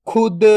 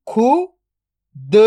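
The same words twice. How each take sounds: First: Said in the usual way. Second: "खुद" split into खु, then द, very slow; drawn-out breakdown of "खुद"; sound by sound. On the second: Shown as a demonstration. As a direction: sound out खु ... द with a long gap. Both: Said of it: "तो मिलके बन जाएगा".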